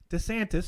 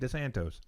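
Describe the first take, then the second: First: The name ends with an 'iss' sound. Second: The name ends with an 'oss' sound. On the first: The speaker calls it right. "they are correct" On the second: The speaker calls it wrong. "that's not the correct pronunciation"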